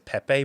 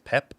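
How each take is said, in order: First: The name ends with a vowel sound. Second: The name ends on a p sound. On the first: This is how most people say it. "everyone says Pepe" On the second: This is how native speakers say it. "whenever Portuguese people say it, it's Pep"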